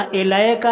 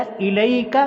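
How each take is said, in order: First: إِلَيْكَ said as "aelaeka" with open e-vowels; إِلَيْكَ with a flattened long e, the mistake; wrong pronunciation. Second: إِلَيْكَ said crisply as "ilaik"; إِلَيْكَ with a clear short i and ai; correct pronunciation. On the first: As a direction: model the wrong majhul reading of إِلَيْكَ. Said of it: "یہ مجہول ہے". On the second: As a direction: give the correct reading of إِلَيْكَ. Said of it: "بلکہ صحیح تلفظ کیا ہے؟". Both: Shown as a demonstration.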